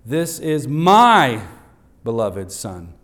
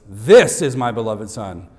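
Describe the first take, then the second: First: Preacher showing fathers how to stress my. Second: This hit hard and loud at the start; preacher showing fathers how to stress This. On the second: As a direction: land firmly on the word This. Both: Shown as a demonstration. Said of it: "So emphasize all of those".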